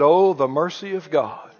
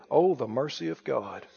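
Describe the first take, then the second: First: Said in the usual way. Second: Tender awe. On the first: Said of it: "I said". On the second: Real, not acted. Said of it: "I said, "Oh, the mercy of God".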